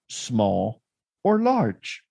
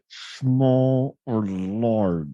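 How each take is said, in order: First: It is said in a normal, relaxed voice. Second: It is said tensely through clenched teeth.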